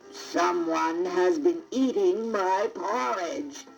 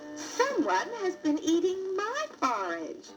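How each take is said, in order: First: It is growled in a deep, big voice. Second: It is said in a medium, middle-sized voice.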